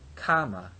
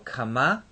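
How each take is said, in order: First: The stress is on the first syllable. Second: The stress is on the second syllable. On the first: It is the past-tense affix form. "affix ... the stress on the first syllable of the affix" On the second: It is the present participle form. "participle ... it's on the second syllable of the participle"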